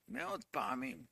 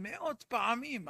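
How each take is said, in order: First: מאות פעמים repeated much lower and softer, like an aside; quiet echo. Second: Said in the usual way. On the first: Shown as a demonstration. Preacher echoing his own words to the congregation, low and soft. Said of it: "חוזרים מאות פעמים".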